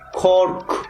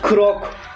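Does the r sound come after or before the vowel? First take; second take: after; before. First: The r sound comes after the vowel. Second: The r sound comes before the vowel. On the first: The speaker calls it right. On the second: The speaker calls it wrong.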